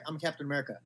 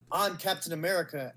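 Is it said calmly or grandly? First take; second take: calmly; grandly. First: It is said calmly, without any fanfare. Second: It is said grandly, with big dramatic flair.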